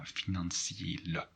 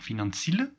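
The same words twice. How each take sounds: First: The i and e are said as separate vowels. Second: The i and e merge into one vowel. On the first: The speaker calls it right. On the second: The speaker calls it wrong. "if there are no two dots, you would say"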